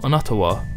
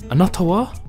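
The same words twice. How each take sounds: First: The pitch stays level or falls at the end. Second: The pitch rises at the end. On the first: It sounds blunt. The speaker calls it wrong. "It's not anata wa, which can be quite blunt" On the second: It politely asks for the other person's name. The speaker calls it right. "notice the rise in intonation when asking a question"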